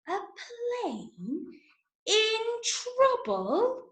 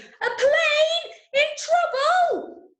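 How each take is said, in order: First: It is said very slowly. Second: It is said very loudly.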